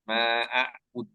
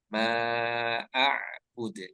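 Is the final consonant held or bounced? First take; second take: held; bounced. First: The final consonant is held without bouncing. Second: The final consonant is released with a bounce. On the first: The speaker calls it wrong. "Jangan ditahan. ... tidak memantun" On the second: The speaker calls it right. "Seharusnya mantun"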